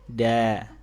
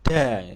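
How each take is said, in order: First: The tongue is released slowly and softly. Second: The tongue is released with a forceful slam. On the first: The speaker calls it right. "Turunnya pelan aja, alus, alus" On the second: The speaker calls it wrong. "turuninnya dibanting"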